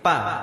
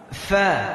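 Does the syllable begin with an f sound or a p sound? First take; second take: p; f. First: It begins with a p sound. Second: It begins with an f sound. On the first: The speaker calls it wrong. "Tidak bisa mengucapkan huruf fa dengan benar. Yang diucapnya p" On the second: The speaker calls it right. "kalau kita tahu makhrajnya, tempat di mana dia tempat keluarnya, insyaallah bisa diubah"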